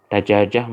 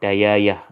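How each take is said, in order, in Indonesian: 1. Huruf tengahnya bunyi j. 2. Huruf tengahnya bunyi y.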